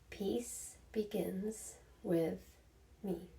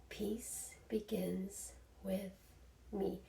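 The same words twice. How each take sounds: The two takes are said the same way.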